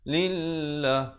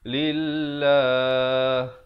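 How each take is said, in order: First: The final vowel is cut short. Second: The final vowel is held for two beats. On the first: The speaker calls it wrong. "Itu tak betul" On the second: The speaker calls it right. "Dia kena wakaf sekurang-kurangnya"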